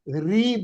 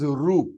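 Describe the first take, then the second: First: The syllable is said with an 'ee' vowel. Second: The syllable is said with an 'oo' vowel. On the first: This is the Hindi pronunciation. The speaker calls it wrong. "काफी लोग इसे री बोलते हैं" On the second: This is the Sanskrit pronunciation. The speaker calls it right. "This is Ru"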